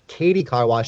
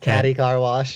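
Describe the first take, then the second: First: The first word is said as Katie. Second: The first word is said as Caddy. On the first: The speaker calls it right. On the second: The speaker calls it wrong.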